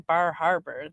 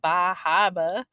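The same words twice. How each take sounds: First: It is said in the speaker's usual accent. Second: It is said in a Boston-style accent.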